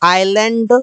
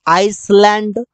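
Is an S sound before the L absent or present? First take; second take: absent; present. First: No S sound is heard before the L. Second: An S sound is heard before the L. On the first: The speaker calls it right. "इसे इससे बोलते हैं आइलैंड" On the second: The speaker calls it wrong. "इस प्रकार से नहीं बोलते।"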